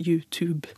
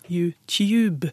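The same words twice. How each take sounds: First: It is said with an American English pronunciation. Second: It is said with a British English pronunciation. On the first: The speaker is young. "denne unge har en amerikansk-engelsk uttale av YouTube" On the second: The speaker is older. "Mens den voksne har en britisk-engelsk uttale"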